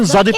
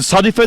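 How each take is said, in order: First: The name begins with a voiced z sound. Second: The name begins with a voiceless s sound. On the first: "Zeylen de okulur" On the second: "Seylen de okulur"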